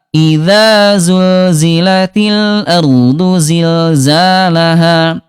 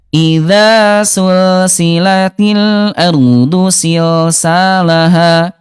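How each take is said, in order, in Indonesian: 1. Konsonannya bunyi z yang bergetar tanpa udara. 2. Konsonannya bunyi s yang mendesis dengan udara. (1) "yang betul adalah yang kedua" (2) "Yang ke satu ya"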